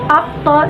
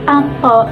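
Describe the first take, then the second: First: The word has an ain before the t. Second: The word has an n before the t. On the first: This is the standard form. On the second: This is the dialect form.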